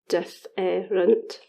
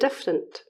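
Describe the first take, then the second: First: The middle eh sound is said in full. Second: The middle eh sound is dropped.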